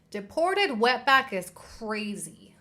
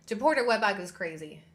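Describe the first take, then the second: First: "Deported wetback is crazy" dragged out slowly, every word weighted; slow emphatic repeat. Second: Said in the usual way. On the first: Real, not acted. To viewers, spelling out the slur slowly and heavily.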